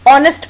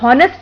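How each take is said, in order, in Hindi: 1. शब्द सीधे स्वर से शुरू होता है। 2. शब्द की शुरुआत एक स्पष्ट h ध्वनि से होती है। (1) "कॉन्सोनेंट साइलेंट हो जाता है" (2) "एच हा की ध्वनि प्रोड्यूस करता है"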